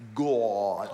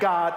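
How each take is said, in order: First: The word is said heavily, drawn out, dramatically. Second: The word is said lightly and casually. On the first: It is the name used in real trouble. The speaker calls it right. "you use the anointed pronunciation" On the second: It is the everyday cutesy name. The speaker calls it wrong. "It ain't God"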